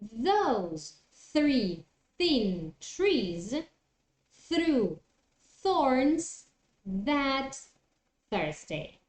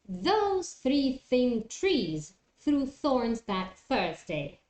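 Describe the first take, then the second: First: The phrase is said slowly and carefully. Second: The phrase is said at a moderate speed. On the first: "do it slowly" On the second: "try to do it a little bit faster"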